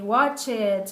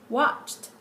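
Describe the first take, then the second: First: The ending is said as a separate syllable. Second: The ending is not said as a separate syllable. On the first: The speaker calls it wrong. "we tend to pronounce ed for every regular verb" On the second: The speaker calls it right. "instead of saying watched"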